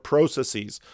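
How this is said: It is said with a Canadian-style pronunciation.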